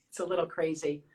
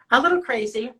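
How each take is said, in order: First: Said in the usual way. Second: Louder, teasing repeat of little crazy; playful emphasis. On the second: Shown as a demonstration. Showing fans her nails, louder playful repeat. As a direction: lean into "little" with a playful rise. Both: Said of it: "You wanna see my nail design?".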